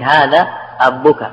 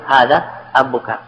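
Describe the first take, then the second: First: أبك said with a doubled, held b; slow, stress the doubled b in أبك; doubled consonant. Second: Said in the usual way. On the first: Shown as a demonstration. To students, demonstrating the doubled form أبك. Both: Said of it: "لغة رابعة وهي تشديد".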